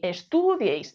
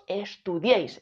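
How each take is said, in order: First: The stress falls before the last syllable. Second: The stress falls on the last syllable. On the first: The speaker calls it wrong. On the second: The speaker calls it right. "decimos estudiéis, el golpe de voz está aquí"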